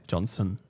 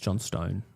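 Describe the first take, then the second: First: The name is said without a t sound. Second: The name is said with a clear t sound. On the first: The speaker calls it wrong. "What did I say?" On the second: The speaker calls it right. "It's John Stone"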